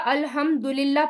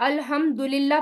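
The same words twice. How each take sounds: First: The vowel after the d is u. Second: The vowel after the d is u.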